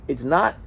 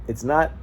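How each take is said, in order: No difference in how they are said.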